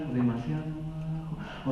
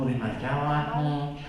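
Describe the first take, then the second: First: Too quiet. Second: Too quiet again. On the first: Speaker demonstrating a too-soft voice to the audience, much softer. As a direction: say "o demasiado bajo" much softer. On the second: Speaker repeating the too-soft voice demo, softer. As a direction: say "o demasiado bajo" softly, trailing off. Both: Shown as a demonstration. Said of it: "el tono de tu voz es demasiado al".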